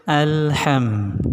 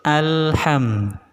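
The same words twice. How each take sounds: The two takes are said the same way.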